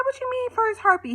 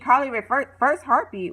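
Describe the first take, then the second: First: Much higher, incredulous squeal of a question; shocked question. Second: Said in the usual way. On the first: Retold or imitated. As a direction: catch him out in disbelief. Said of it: "She said". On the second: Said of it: "speaker repeats the phrase herself".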